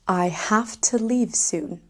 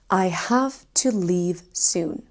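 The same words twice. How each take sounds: First: 'Have to' is reduced to 'hafta'. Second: 'Have to' is said as two full words. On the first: "people say have to" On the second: "Instead of saying have to"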